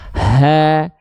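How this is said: The sound is light, with breath flowing easily. The speaker calls it right. "Rasakan saja dengan ringan"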